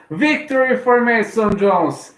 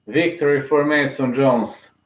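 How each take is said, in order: First: Much higher, slow and drawn out; thrilled victory announcement; excited victory call. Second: Said in the usual way. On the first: Real, not acted. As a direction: announce the win like a ring announcer. Announces the win live.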